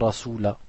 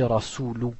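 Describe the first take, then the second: First: The word ends with an 'a' sound. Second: The word ends with a 'u' sound. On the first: The speaker calls it wrong. "pas rasula" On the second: The speaker calls it right. "Et on dit rasulu"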